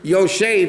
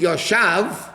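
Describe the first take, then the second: First: The second vowel is an 'e' sound. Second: The second vowel is an 'a' sound. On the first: It is in the present tense. The speaker calls it right. "if you have the word Yoshev" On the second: It is in the past tense. The speaker calls it wrong. "you read it Yoshav, that's past and present"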